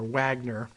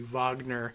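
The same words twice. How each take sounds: First: The name is said with an English pronunciation. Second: The name is said with a Russian pronunciation.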